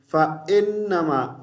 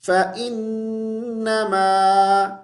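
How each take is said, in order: First: فَإِنَّمَا rushed with an Urdu ay sound; the mistaken quick فَإِنَّمَا; wrong reading. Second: Slow فَإِنَّمَا with a clean ee vowel on إِ; correct recitation. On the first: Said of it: "فَإِنَّمَا کو ہم اس طرح نہیں پڑھیں گے". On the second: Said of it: "ای کی آواز جیسی آواز نکالیں گے". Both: Shown as a demonstration.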